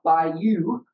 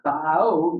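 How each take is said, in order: First: The word ends with a 'you' sound. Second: The word ends with an 'oh' sound. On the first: The speaker calls it wrong. "It's not by you" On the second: The speaker calls it right. "it's by oh. You got to say it right. You got to redneck it up"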